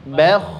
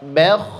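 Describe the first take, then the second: Both takes have the same delivery.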